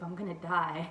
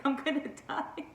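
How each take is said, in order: First: Said in the usual way. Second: Laughing repeat. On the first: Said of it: "I remember telling Joseph". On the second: Retold or imitated.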